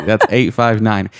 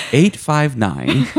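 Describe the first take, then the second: First: Said in the usual way. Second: Drawled eight five nine. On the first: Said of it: "so that's Kentucky". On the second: Shown as a demonstration. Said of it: "That's Central Kentucky".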